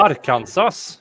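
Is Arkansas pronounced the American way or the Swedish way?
Swedish. It is pronounced the way Swedish speakers say it.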